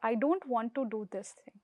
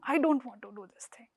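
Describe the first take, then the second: First: It is said in a calm, steady tone. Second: It is said in an aggressive, emotional tone. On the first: The refusal is clear but not hostile. The speaker calls it right. "This is the simple thing in assertive way. You are not shouting" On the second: The refusal is hostile and angry. The speaker calls it wrong. "you have to avoid the aggression"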